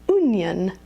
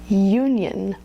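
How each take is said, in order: First: The first vowel is a plain oo sound. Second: The first vowel is a gliding you sound. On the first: The speaker calls it wrong. "I've heard a lot of students call it the onion or the union" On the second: The speaker calls it right. "But this is the diphthong u"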